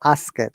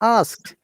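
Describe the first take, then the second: First: The word is broken into two syllables. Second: The word is said as one syllable. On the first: The speaker calls it wrong. "Do not pronounce ask it" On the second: The speaker calls it right. "It is asked in one breathing"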